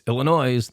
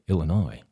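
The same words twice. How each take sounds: First: The word ends with an audible s sound. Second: The word ends without any s sound. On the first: It is how the spelling suggests it. The speaker calls it wrong. "when you look at it" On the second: It is how it is actually said. The speaker calls it right. "but it's really"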